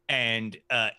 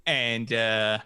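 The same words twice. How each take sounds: The two takes are said the same way.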